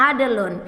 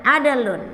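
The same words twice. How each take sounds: The two takes are said the same way.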